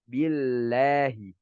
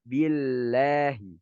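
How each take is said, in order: The two takes are said the same way.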